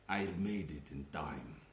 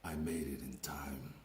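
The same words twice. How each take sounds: First: It is spoken in a put-on Romanian accent. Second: It is spoken in a plain deep voice. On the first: The speaker calls it wrong. "I was thinking to give him a Romanian voice" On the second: The speaker calls it right. "Let's just use a normal deep voice"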